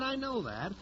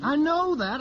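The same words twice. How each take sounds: First: The second I know that dropped much softer, muttered; softer repeat. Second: The first I know that louder and higher, snapping; impatient. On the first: Record man repeats himself to the singer, soft and weary. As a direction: let the repeat fall away under your breath. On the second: Record man cuts off the chatty singer, impatient and loud. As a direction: cut her off loudly, irritated. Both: Acted.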